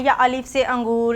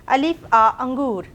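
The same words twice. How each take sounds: First: अलिफ से अंगूर read with से, the wrong way. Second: अलिफ आ अंगूर, slow, with a clear आ; right way. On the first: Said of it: "ऐसे नहीं पढ़ना है". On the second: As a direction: say आ between अलिफ and अंगूर, slowly. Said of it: "हम लोग पढ़ेंगे अलिफ आ अंडा". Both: Shown as a demonstration.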